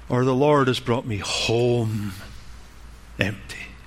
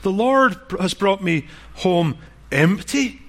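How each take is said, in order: First: The word home carries the main stress. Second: The word empty carries the main stress. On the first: The point is that she is back home. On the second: The point is that she came back with nothing.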